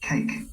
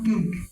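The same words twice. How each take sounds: First: The first k has a strong puff of air. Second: The first k has no puff of air. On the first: The speaker calls it right. "তা খ হয়ে গেলেই উচ্চারণ সুন্দর হয়ে যাবে" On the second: The speaker calls it wrong. "Not কেক"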